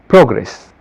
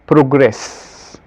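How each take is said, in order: First: The stress is on the first syllable. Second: The stress is on the second syllable. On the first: It is used as a noun. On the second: It is used as a verb. "but as a verb"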